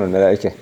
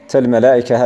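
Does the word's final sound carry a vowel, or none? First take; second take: none; vowel. First: The final letter has no vowel. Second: The final letter carries a short u vowel. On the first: The reciter pauses on the word. "الوقف بالسكون" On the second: The word is joined to the next word. "ضمها في الوصل اتباعا لضمة الجيم بعدها"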